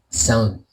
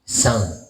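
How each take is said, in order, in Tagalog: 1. Tuyo ang boses at walang dagdag na effect. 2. May dagdag na reverb effect ang boses. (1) "Yan yung boses nung wala pang effect" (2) "Lalagyan natin ng effects naman"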